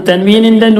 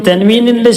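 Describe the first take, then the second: The two takes are said the same way.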